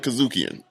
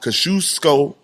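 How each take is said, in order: First: The name ends with an added N sound. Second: The name ends in a vowel, without an N. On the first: The speaker calls it wrong. "I sorry for calling it Kazukian" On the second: The speaker calls it right. "I want to say sorry how I pronounced this last time"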